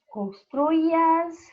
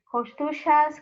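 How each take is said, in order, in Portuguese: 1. O y é pronunciado como a vogal i. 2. O y é pronunciado como o som de ch. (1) "pode ser pronunciado como um I" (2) "ou como um C H, como falam os argentinos"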